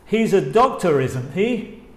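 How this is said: The pitch rises at the end of the tag. It is a real question; the speaker does not know. "El primero es con la entonación que sube"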